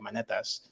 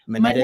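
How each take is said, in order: First: The name is said with a Greek pronunciation. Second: The name is said in a plain Northern way. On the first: "in Greek, it'd be like" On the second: "I say it Monetis"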